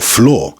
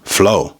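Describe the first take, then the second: First: The final R sound is pronounced. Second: The final R sound is dropped. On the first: "or floor" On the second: "that can become flow"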